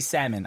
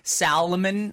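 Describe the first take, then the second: First: The L in the middle is silent. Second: The L in the middle is pronounced. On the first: The speaker calls it right. "It's supposed to be silent" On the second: The speaker calls it wrong. "I hate the people with the L in the middle"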